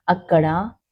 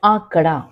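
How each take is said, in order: First: அக்கடா with a short clipped first அ. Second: ஆக்கடா with the first ஆ held long. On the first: Teacher showing pupils the short அ in அக்கடா. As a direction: say அக்கடா keeping the opening அ short. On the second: Teacher contrasting the long ஆ in ஆக்கடா for pupils. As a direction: stretch the opening ஆ of ஆக்கடா. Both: Shown as a demonstration. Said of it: "அக்கடா என்று சொன்னால்".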